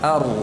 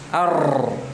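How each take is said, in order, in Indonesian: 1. Huruf r hanya bergetar ringan, hampir tidak terdengar. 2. Huruf r digetarkan dengan getaran yang kuat dan terdengar jelas. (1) "Itu yang benar" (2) "jangan ditampakkan ar, enggak"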